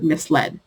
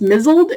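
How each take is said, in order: First: It is said as 'mis-led', with an s. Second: It is said as one word, 'mizzled', with a z. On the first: "hear the word misled" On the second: "In my head, it is pronounced mizzled"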